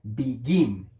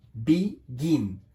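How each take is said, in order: First: Said in the usual way. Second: "begin" split into be, then gin; syllable by syllable. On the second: Shown as a demonstration. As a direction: break "begin" into two separate beats, be-gin. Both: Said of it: "tiene dos sílabas".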